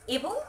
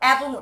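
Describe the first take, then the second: First: The first vowel is close, like 'e'. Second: The first vowel is open, like 'ae'. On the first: The speaker calls it right. "এবং উচ্চারণ করব" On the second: The speaker calls it wrong. "এবং উচ্চারণ করব না"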